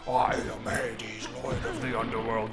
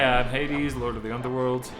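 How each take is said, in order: First: It is said in a deep, dramatic voice. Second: It is said in a light, casual voice. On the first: The actor is trying hard to sound menacing. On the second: The actor is relaxed and not trying to impress.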